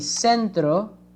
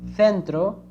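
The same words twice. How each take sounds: First: The c sounds like 's', Latin American accent. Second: The c sounds like 'th', Spain's accent.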